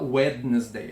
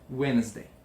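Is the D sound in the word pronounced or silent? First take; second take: pronounced; silent. First: The D in the middle is pronounced. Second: The D in the middle is silent. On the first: The speaker calls it wrong. "ninguém fala Wednesday" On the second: The speaker calls it right. "a gente come fora aquele D"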